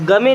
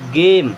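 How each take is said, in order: First: It is read as two syllables, ga-me. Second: It is read as one syllable, game. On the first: The speaker calls it wrong. "इसे गमे नहीं पढ़ेंगे" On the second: The speaker calls it right. "क्या पढ़ेंगे? गेम।"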